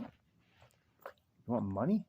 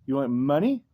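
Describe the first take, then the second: First: Very slow, stretched, quieter "You want money?" with a rising end; drawn-out tease. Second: Said in the usual way. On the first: Pretend. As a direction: drag every word of "You want money?" out to tease the dog. Same question repeated to dog.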